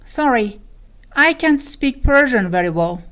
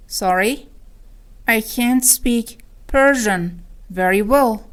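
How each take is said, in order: First: Said in the usual way. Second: Slow, segmented teaching repeat; word by word. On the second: Shown as a demonstration. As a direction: spell out "I can't speak ... Persian ... very well" with pauses. (شمرده و با مکث)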